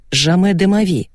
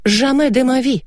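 First: Said in the usual way. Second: High, theatrical French refusal; lofty, pitched-up "never"; emphatic declaration. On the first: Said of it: "Примечание". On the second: A narrator's reading. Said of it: "заявила я и удивилась".

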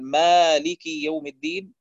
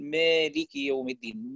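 First: Said in the usual way. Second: مالك said as "melik", alif leaning toward ya; imala on the alif. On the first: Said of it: "بدل أن يقول". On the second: Shown as a demonstration. Teacher showing students the imala mistake in مالك, alif bent toward ya. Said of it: "يقول، فبيقلل الألف".

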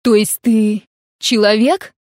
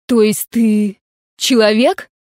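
First: Insistent repeat. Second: Drawn-out disbelieving question; slow stunned question. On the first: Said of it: "повторила". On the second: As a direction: ask slowly, hardly believing it. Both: A narrator's reading.

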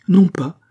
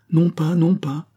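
First: Much higher, loud burst of refusal; sharp loud insistent no; insisting loudly. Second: Slow, higher, louder insistence; firm slow no, raised pitch; insisting. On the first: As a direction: cut in hard with the no. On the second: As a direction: press the refusal slowly. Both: A narrator's reading. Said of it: "insista Pitou".

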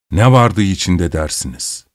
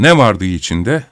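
First: "Ne vardı içinde" with stress on "Ne" and a low falling end; falling question. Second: "ne vardı içinde" with stress on "ne" and a rising end, inviting a guess; rising question. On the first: ("Ne" vurgulu, sonu alçalan bir soru) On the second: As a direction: put it to the listeners, rising on "içinde". ("ne" vurgulu, sonu yükselen, merak uyandıran soru) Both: A narrator's reading. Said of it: "Söyleyin bakalım".

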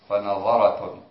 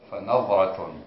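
First: فنظرة with a vowel after the ظ; vowelled middle consonant. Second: فنظرة with no vowel after the ظ; sukun on ظ. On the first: Student's first try at the variant reading, vowelled ظ. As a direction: say فنظرة in four syllables, "fa-na-dha-ra". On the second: Student reading the variant to the teacher, silent-vowel ظ. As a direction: say فنظرة tightly as "fa-nadh-ra". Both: Shown as a demonstration. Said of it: "بسكون الضاء".

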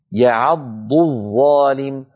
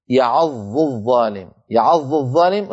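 First: يعض الظالم slow, ض doubled and then a distinct ظ; dad then zha clearly. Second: يعض الظالم with ض merged into ظ; the wrong reading; merged into zha. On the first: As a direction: recite يعض الظالم slowly, keeping the letters apart. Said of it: "أن نبين صوت الضاد من صوت الظاء". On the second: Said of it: "نكون قد نطقنا ظائين". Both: Shown as a demonstration.

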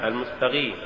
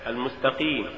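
First: المستقيم with ق turned into غ; faulty reading of المستقيم, gh replacing q; mispronounced ق. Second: Said in the usual way. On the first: Shown as a demonstration. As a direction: say المستقيم as "al-mustaghim". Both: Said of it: "تقرأ لحنا".

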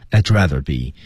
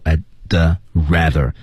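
First: "I'd rather" run together, the d sliding into the r; "I'd rather be" joined in one smooth phrase; linked pronunciation. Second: "I'd" and "rather" said apart, with a pause; unlinked "I'd ... rather", one word at a time. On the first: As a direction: link "I'd" straight into "rather be". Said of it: "其实它多少带了一点小的连读". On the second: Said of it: "多少带了一点小的连读". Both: Shown as a demonstration.

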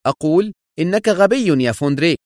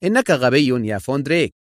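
First: High-pitched angry insistence; irritated, cutting emphasis; sharp. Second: Composed, even put-down; cool, unhurried interruption; calm. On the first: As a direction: repeat the insult sharply. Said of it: "وهو يقول في حدة". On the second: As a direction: state the insult calmly. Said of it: "قاطعه هنريك في هدوء". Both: A narrator's reading.

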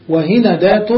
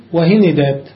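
First: وهندات with the noon opened by a, wa-hinadat; وهندات said with fatha on the noon, rising at the end. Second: وهندات with the noon taking i, wa-hinidat; وهندات said with kasra on the noon, falling at the end; hinidat with two kasras. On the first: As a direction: say وهندات as wa-hi-na-dat. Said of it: "وكسرات بالفتح". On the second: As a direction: say وهندات as wa-hi-ni-dat. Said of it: "وكسرات بكسرتين". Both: Shown as a demonstration.

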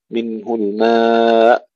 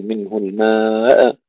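First: Slow الماء, long vowel ending in a clean hamza stop; hamza without bounce. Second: الماء with an echo on the final hamza; the mistake: release الماء with a bounce; bounced hamza. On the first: Teacher showing correct recitation, unbounced hamza ending الماء. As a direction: stretch الماء and stop without any echo. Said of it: "نظهرها بدون قلقلة". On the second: Teacher showing what not to say, bounced end of الماء. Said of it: "هنا الهمزة لا نقلقلها". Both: Shown as a demonstration.

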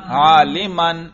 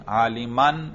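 First: عالمن drawn out slowly and louder, ending clearly -an; عالمن long and slow with a clear -an ending; accusative ending shown. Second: Said in the usual way. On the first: Shown as a demonstration. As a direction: stretch عالمن out, landing hard on -an. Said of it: "نصب". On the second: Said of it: "دیکھا تلفظ سے ہی اعراب کا پتہ چل رہا ہے".

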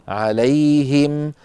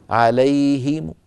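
First: عليهم slow, closing on a plain m; stop on still mim. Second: عليهم slow, ending in a faint -mu; wrong stop with rawm. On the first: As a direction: end عليهم on m, no vowel. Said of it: "سكنوا الميم هكذا". (الوقف على عليهم بميم ساكنة) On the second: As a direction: add a weak u after the m of عليهم. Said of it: "بميم مضمومة مع صوت منخفض". (عليهم بميم مضمومة منخفضة الصوت) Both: Shown as a demonstration.

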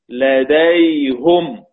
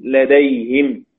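First: لديهم said "ladayhum", very slowly; damma on the ha. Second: لديهم said "ladayhim", slowly; kasra on the ha. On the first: Teacher reciting as Hamza reads, لديهم as slow "ladayhum". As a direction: stretch لديهم to a "-hum" ending. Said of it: "إلا حمزة قرأها بالضم". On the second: Teacher listing ya sakina examples, لديهم as slow "ladayhim". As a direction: stretch لديهم, ending "-him". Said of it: "إذا كان قبلها ياء ساكنة". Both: Shown as a demonstration.

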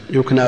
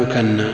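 First: يكنى as yukna, silent vowel on the kaf, single n; yukna, undoubled n in يكنى; light verb form. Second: يكنى as yukanna, "a" after kaf and doubled n; yukanna, held double n in يكنى. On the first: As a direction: say يكنى as two syllables, yuk-na. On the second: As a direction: say يكنى as three syllables, yu-kan-na. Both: Shown as a demonstration. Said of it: "تكنية".

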